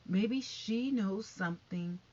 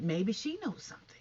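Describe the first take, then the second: First: SHE leaned on, the phrase slowed right down; slow down and land hard on "she"; stress on SHE. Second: Said in the usual way. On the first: Real, not acted. Vlogger speculating that she knows more, slow emphasis on "she".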